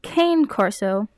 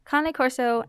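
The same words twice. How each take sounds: First: The name is pronounced as spelled in English. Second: The name is pronounced the Italian way. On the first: The speaker calls it wrong. "you wouldn't pronounce it Cane Corso as it is typed" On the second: The speaker calls it right. "as I'm pronouncing it, is the correct way to pronounce it because they are an Italian breed"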